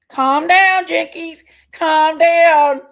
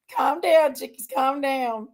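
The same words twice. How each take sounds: First: Loud, higher-pitched order to yourself; worked-up self-command. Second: Settling self down. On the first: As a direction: talk yourself down at full volume. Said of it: "I need to calm down". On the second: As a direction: talk yourself down, slowing at the end. Talking herself down after outburst. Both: Real, not acted.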